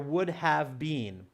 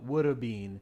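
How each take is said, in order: First: Have is said in full as a separate word. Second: Have is reduced to a single vowel sound.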